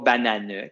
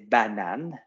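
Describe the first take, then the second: First: A vowel is sounded after the final n. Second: The word ends on the n, no vowel. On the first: The speaker calls it wrong. "c'est pas bananeux" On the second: The speaker calls it right. "c'est banane"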